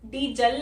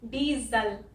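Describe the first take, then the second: First: The middle consonant is an s sound. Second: The middle consonant is a z sound. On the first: The speaker calls it wrong. "डीजल नहीं" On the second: The speaker calls it right. "यहाँ पे इसको हम ज बोलते हैं"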